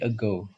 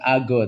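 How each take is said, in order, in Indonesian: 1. Vokal pertama terdengar seperti 'e' lemah. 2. Vokal pertama terdengar seperti 'a' penuh. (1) "kalau ada A itu bacanya E ya, ... tapi ago" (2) "bukan ago"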